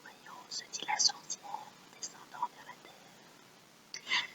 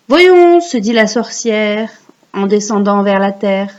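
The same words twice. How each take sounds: First: Very faint, slow whisper; barely audible whisper, as if repeating along; whispered echo. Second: Recite for repeating. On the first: Echoing the line for pupils. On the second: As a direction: model the verse for children to repeat. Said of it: "vous allez réciter après moi". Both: Shown as a demonstration.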